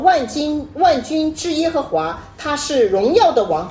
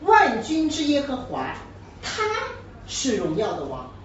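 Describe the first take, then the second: First: The stress falls on the closing words 荣耀的王. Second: The stress falls on the opening words 万军之耶和华. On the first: It stresses what he is, not who he is. The speaker calls it wrong. "就没有意思了……他只是强调他是荣耀的王" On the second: It answers the question of who the king is. The speaker calls it right. "是不是就不一样了？前面在问是谁嘛"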